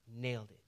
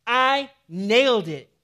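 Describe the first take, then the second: First: Soft, low Nailed it, almost under the breath; quiet nailed it. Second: Loud, slow, punching I nailed it; emphatic declaration. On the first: Pastor closing Paul's boast, soft and hushed. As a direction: let Nailed it settle, hushed. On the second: Paul declaring his finished life, loud and emphatic. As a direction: slam down I nailed it as a triumph. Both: Acted. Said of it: "It's emphatic".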